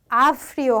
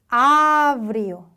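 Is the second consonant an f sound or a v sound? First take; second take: f sound; v sound. First: The second consonant is a voiceless f sound. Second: The second consonant is a voiced v sound. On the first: The speaker calls it wrong. "발음이 너무 거칠죠" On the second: The speaker calls it right. "아브 발음이고"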